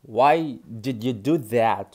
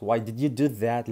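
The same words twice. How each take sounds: First: Slow, word by word; slow teaching. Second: Said in the usual way. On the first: Shown as a demonstration. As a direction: model it slowly. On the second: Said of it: "ليه عملت كده؟".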